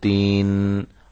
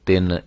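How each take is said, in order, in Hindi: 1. इस स्वर को लंबा खींचा गया है। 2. इस स्वर को मजहूल की आवाज़ दी गई है। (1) "लंबा लंबा करके इसको पढ़ा पढ़ा जाए तो ये गलत होगा" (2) "ये मजहूल है।"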